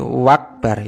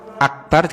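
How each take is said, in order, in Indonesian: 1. Kata itu dimulai dengan bunyi w. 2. Kata itu dimulai dengan hamzah.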